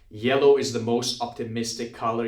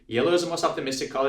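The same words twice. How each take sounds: First: It is spoken at a moderate, controlled pace. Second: It is spoken very fast, words running together. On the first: The speaker calls it right. "this is how like the sentence is read aloud" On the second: The speaker calls it wrong. "people that speak Telugu or Tamil go, ... because you can speak that fast"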